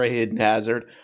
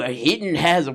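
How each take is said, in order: First: It is said in the speaker's normal voice. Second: It is said in an exaggerated put-on voice.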